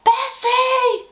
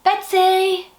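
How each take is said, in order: First: Even higher, full loud call of the name; louder call. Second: High, loud call to a friend off-stage. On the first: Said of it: "A bit louder". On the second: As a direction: shout her name up high. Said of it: "shall we shout for Betsy then?". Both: Acted.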